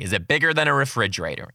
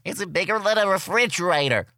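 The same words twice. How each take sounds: First: Said in the usual way. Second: Put-on high, thin little kid voice; lightly voiced kindergartner asking. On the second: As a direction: ask it like a curious five-year-old. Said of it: "Someone asked me".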